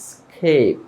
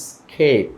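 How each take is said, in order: Both takes have the same delivery.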